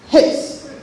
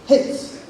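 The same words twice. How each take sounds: First: The vowel is said short. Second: The same.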